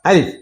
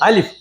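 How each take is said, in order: First: The vowel of the word is drawn out. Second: The vowel of the word is kept short. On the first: The speaker calls it wrong. "ഇതേപോലെ നീട്ടത്തില്ല അല്ലേ?" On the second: The speaker calls it right. "പിന്നെ എങ്ങനെ തന്നെ പറയണം നമ്മള്?"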